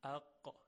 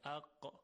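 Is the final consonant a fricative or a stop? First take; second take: stop; stop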